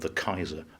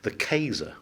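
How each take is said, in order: First: The title is said in its usual pronunciation. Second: The title is said in a populist anglicized pronunciation.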